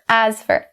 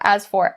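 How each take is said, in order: First: The word 'for' is reduced to a quick 'fur'. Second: The word 'for' is said slowly and fully. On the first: "change for to fur" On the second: "rather than saying as for"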